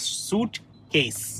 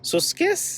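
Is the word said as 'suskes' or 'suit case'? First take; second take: suit case; suskes. First: The word is said fully as 'suit case'. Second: The word is squeezed to 'suskes' without the t. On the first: The speaker calls it right. "It is सूट केस" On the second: The speaker calls it wrong. "सुस्केस क्या है?"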